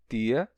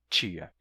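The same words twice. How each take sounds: First: The t is a plain t sound. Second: The t is hissed like a ch sound.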